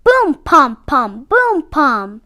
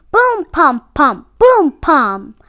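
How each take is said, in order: Both takes have the same delivery.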